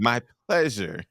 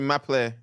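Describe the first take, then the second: First: The phrase is said fully with every syllable. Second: The phrase is cut short after the first syllable. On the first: It is the expected polite phrase. The speaker calls it right. "How are they supposed to say it" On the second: It sounds careless or incomplete. The speaker calls it wrong. "That is not how you supposed to say that"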